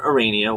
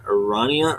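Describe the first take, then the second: First: Arania as a-RAY-nia; ay pronunciation. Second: Arania as a-RAH-nia, rising; ah pronunciation. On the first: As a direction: try Arania with the vowel of "rain". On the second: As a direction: try Arania with an open "ah". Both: Shown as a demonstration.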